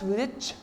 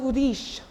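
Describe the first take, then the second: First: The word ends with a ch sound. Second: The word ends with an sh sound. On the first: The speaker calls it wrong. "Don't pronounce it as rich" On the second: The speaker calls it right. "the pronunciation is like sh"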